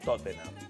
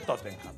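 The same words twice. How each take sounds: First: The name is said with English-style pronunciation. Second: The name is said with Spanish-style pronunciation. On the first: This is a newer imitation of the foreign way. The speaker calls it wrong. "Ahora son todos monos y dicen" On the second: This is the traditional local way of saying it. The speaker calls it right. "Toda la vida, para mí, cuando Ardiles y Villa jugaban, era el Tottenham. Todo el mundo decía"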